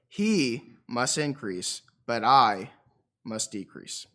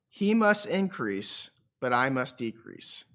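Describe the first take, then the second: First: It is said with strong, forceful emphasis. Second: It is said plainly, with little emphasis.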